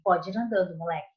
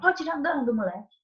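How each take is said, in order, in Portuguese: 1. É dita num tom brando, permissivo. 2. É dita num tom agressivo, de comando. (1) "ele soa como uma autorização" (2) "como se fosse mais agressiva"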